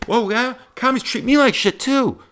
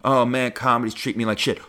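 First: Much higher, louder, overeager squeaky voice; mock eager comic. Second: Said in the usual way. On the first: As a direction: parody a needy comic who relates to everything. Plays second eager comic.

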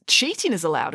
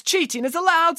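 First: Cool agreement in an everyday pitch; restrained, matter-of-fact agreement; agreeing. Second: Very high, emphatic official's voice; CHEATING IS ALLOWED pitched high, as a ruling; insistent vice principal. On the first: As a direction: concede the point evenly, without raising the voice. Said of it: "agreed Friday". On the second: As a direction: insist on it as an indignant school official. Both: A narrator's reading.

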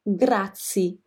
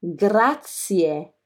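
First: "grazie" with the final e dropped, ending in -zee; foreigners' mispronunciation. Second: "Grazie" with both final vowels sounded, i then e; correct Italian pronunciation. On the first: Retold or imitated. Teacher shows foreigners' mistake, "grazie" without its last vowel. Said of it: "Many foreigners often say". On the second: Shown as a demonstration. Teacher corrects foreigners' mistake, "Grazie" with every vowel sounded. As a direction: say "Grazie" fully, ending in a clear -tsee-eh. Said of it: "This is Italian".

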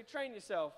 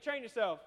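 First: Said in the usual way. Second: Louder, with a punch on Train; said like you mean it. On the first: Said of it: "Look at your neighbor, say". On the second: Shown as a demonstration. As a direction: hit "Train" firm and loud, like you mean it. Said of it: "say it like you mean it".

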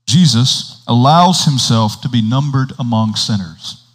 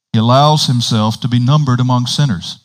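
First: Deliberate reading, spacing out the phrases; slow reading. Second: Flowing reading in one phrase; straight read-through. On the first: Preacher reading a hard passage for listeners, slow reading. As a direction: set each phrase apart as you read. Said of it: "I'm gonna read it slowly". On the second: Preacher rereading the passage without commentary, straight read-through. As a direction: carry the sentence through without breaks. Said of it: "read it again without the commentary". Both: Real, not acted.

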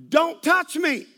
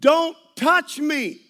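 First: Sharp yelled out; mock yell. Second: Loud, slow, drawn-out yell; louder slow yell. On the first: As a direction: snap it at him like an offended stranger. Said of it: "she yelled out". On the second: Retold or imitated. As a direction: yell it out to the whole plane. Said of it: "I'm not yelling loud enough".

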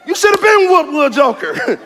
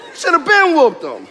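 First: Mock scolding. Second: Laughing. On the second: Real, not acted. Laughs repeating the line.

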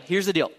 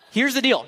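First: Said in the usual way. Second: Here's the deal with deal punched high and loud; louder first take. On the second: Shown as a demonstration. Preacher to students, punching deal. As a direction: hit deal hard the first time.

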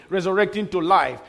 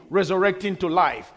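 Both takes have the same delivery.

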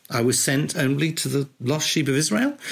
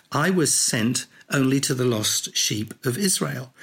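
First: "Israel" lifted in a questioning rise. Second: Flat statement, falling at the end; plain statement. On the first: Speaker rereading Jesus' reply as a possible question. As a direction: let "Israel" lift as if asking. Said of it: "a little inflection there". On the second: Speaker reading Jesus' reply as a plain statement. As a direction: say it as a firm statement. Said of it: "whether that was a statement or a question". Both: Shown as a demonstration.

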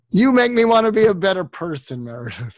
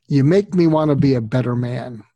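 First: Heartfelt joke to his friend Meredith; playful twist on the quote. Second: A touch louder, lightly voiced movie grump; a hint of a grumpy man's heartfelt line; Jack Nicholson impersonation. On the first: Acted. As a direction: swap the line to personal with a grin. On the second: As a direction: lightly imitate a gruff movie star confessing. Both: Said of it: "I'll do my Jack Nicholson impersonation".

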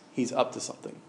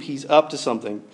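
First: Soft, knowing hush. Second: Said in the usual way. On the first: Shown as a demonstration. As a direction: drop it to a secret.

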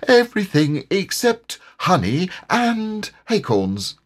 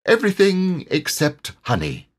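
First: High, emphatic character correction; high-pitched insistent tiger; self-assured tiger. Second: High-pitched, breezy correction; high character voice, unbothered; self-assured tiger. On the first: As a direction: stretch out the added exception as a stubborn tiger. Tigger amends his claim emphatically. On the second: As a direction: toss it off as a confident story tiger. Tigger corrects Pooh airily. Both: A narrator's reading.

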